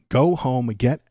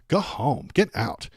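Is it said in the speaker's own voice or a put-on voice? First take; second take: own voice; put-on voice. First: It is said in the speaker's own voice. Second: It is said in a put-on white girl voice.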